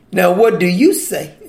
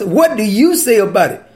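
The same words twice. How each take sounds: First: Dry, mocking question to the teacher; lightly mocking Pharisee challenge; sarcastic question. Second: A mild mocking challenge; sarcastic question. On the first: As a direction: ask it with a sneer, like a trap. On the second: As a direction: toss it back as a smug trap. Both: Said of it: "You hear the sarcasm in their voice?".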